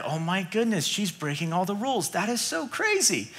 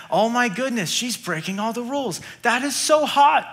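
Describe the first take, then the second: First: Hushed, scandalised murmur of courtiers; softer, scandalised whisper-talk among advisors; shocked advisors. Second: Higher, delighted and laughing at the end; gleeful king grinning through the last line; smitten king. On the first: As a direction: gasp it quietly like gossip at court. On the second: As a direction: play the king thrilled, not shocked. King admiring Esther, amused. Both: Acted.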